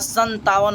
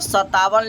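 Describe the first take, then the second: First: The first syllable has a nasal sound. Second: The first syllable has no nasal sound. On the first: The speaker calls it right. "यहाँ संतावन होगा" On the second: The speaker calls it wrong. "असल में यहाँ सत्तावन नहीं होगा"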